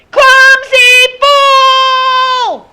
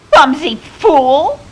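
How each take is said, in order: First: Put-on very high, very slow child's scream; drawn-out scream. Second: High, loud, drawn-out screechy woman's cry; shrill and screechy. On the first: Boy showing the man what yelling is, deafening scream. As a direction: scream it at the top of your lungs, stretching each word. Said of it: "he screamed". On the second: Woman bumped on the foggy beach, shrill and screechy. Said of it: "It was shrill and screechy". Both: A narrator's reading.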